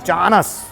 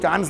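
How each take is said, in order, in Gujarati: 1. બે ઉચ્ચારણ તરીકે, s પહેલાં એક સ્વર સાથે બોલાય છે. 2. એક ઉચ્ચારણ તરીકે, વચ્ચે કોઈ સ્વર ઉમેર્યા વિના બોલાય છે. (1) "અમે તો ચાનસ જ બોલીએ" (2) "ચાન્સ નહીં બોલીએ"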